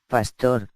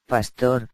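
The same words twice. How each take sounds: First: Pastor said pas-TOR, stress on the O; stress on last syllable. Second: Pastor said PAS-tor, stress on the A; stress on first syllable. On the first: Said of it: "con acento en la O". (pastor con acento en la O, pas-TÓR) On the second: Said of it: "con acento en la A". (pastor con acento en la A, PÁS-tor) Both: Shown as a demonstration.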